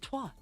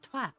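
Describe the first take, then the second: First: It is said in an American accent. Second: It is said in a British accent. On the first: "In the generalized American accent" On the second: "In the generalized British accent"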